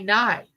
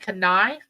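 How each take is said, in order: First: The K sound is left off the start. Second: The K sound is pronounced at the start. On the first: The speaker calls it right. "the K is silent. You know, you say knife" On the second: The speaker calls it wrong. "do you say knife?"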